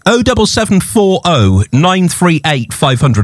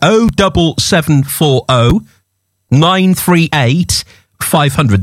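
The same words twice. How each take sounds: First: The number is read at normal speed. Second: The number is read very slowly.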